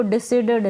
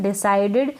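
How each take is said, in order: First: डिसाइडेड said as di-si-ded, short si; wrong pronunciation. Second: डिसाइडेड said as di-sai-ded with long sai; teacher's correct डिसाइडेड, di-sai-ded; correct pronunciation. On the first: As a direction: demo the wrong डिसाइडेड with si, not sai. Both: Shown as a demonstration. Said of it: "इसको डिसाइडेड ना पढ़ें".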